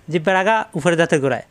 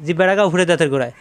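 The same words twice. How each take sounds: The two takes are said the same way.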